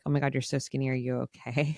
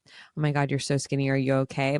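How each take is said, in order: First: It sounds envious and admiring of her thinness. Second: It sounds genuinely worried about her health.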